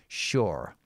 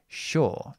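First: It is said with an R sound at the end. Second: It is said with a long O vowel. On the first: The speaker sounds American. "if you want the American pronunciation, you just pronounce the R at the end" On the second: The speaker sounds like most British people. "we pronounce this word with the long O"

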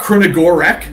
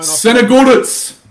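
First: The name begins with a 'kr' sound. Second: The name begins with an 's' sound. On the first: The speaker calls it wrong. "Not Krenogorak" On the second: The speaker calls it right. "Tell me again"

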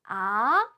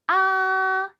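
First: The pitch rises from low to high. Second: The pitch stays high and level. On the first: "아래서 위로" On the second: "앞으로 쭉"

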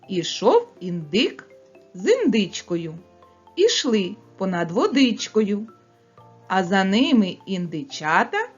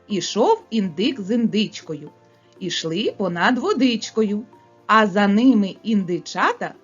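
First: It is spoken at a fast pace. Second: It is spoken at a faster pace. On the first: "Скоромовку швидко промовляємо" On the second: "Швидше, малята, промовляємо"

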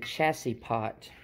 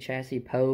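First: The final T sound is pronounced. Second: The final T sound is left silent. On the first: "I always say chassis pot" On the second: "maybe the T silent"

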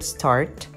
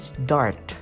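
First: The s is followed by a plain t sound. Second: The s is followed by a d-like sound. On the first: "the word start" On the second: "it should be start, S-D"

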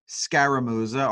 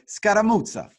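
First: The name is said with an American pronunciation. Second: The name is said with an Italian pronunciation.

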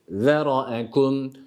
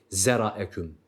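First: The first sound is a lisped, th-like z. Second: The first sound is a sharp, buzzing z. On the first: The speaker calls it right. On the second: The speaker calls it wrong.

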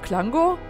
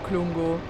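First: The name is said with an English-style vowel. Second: The name is said with a German-style vowel. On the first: This is the pronunciation matching the English original. "Man müsste eigentlich alles etwas Englisch aussprechen" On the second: This is the older familiar pronunciation. "Ich habe dann noch so die alten Aussprachen"

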